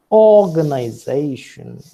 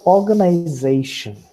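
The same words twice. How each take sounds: First: "organization" with a loud main stress on first syllable "or"; shifted stress on OR. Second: "organization" with main stress on "za", lighter stress on "or"; primary stress on ZAY. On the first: Teacher demonstrating accent shift, "or" stressed hardest in "organization". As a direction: punch the "or" in "organization", let "zation" carry less. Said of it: "org has a greater degree of prominence".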